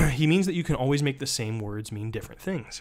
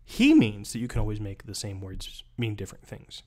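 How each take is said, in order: First: "means" pushed up and leaned on; stress on means. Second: "He" punched at the start, falling after; stress on he. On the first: Teacher shows how stress shifts meaning, hitting "means". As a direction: lean hard on "means". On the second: Teacher shows how stress shifts meaning, punching "He". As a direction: hit the word "He". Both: Shown as a demonstration. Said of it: "You get the idea?".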